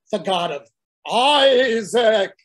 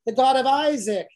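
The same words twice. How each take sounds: First: Slow, loud exasperated shout of Isaac; God insisting. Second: Said in the usual way. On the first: Acted. God shouts his name again at a blank Moses. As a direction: shout it to make him finally get it. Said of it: "And God says". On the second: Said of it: "often mentions".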